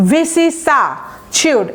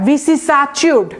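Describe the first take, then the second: First: ভিসি সা চিউড said slowly, syllable by syllable; careful pronunciation. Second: ভিসি সা চিউড with a clear ch sound, not see; careful pronunciation. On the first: Teacher models ভিসি সা চিউড, careful syllables. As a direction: spell out ভিসি সা চিউড for students. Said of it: "এটার উচ্চারণটা খুবই সুন্দর". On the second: Teacher correcting students, ভিসি সা চিউড with ch. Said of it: "সি বলবেন না". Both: Shown as a demonstration.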